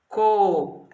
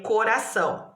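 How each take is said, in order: First: "Coração" as co, ra, ção with long gaps; syllable by syllable. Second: Said in the usual way. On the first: Shown as a demonstration. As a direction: sound out "Coração" in three separate beats. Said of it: "Três sílabas também". ("Coração" separando bem as três sílabas) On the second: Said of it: "como que eu coloco a separação".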